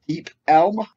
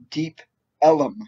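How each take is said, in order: First: The second word has one syllable. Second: The second word has two syllables. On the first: "I've heard it pronounced" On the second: "I've heard it pronounced"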